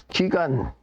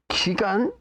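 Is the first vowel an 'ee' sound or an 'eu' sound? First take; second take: ee; ee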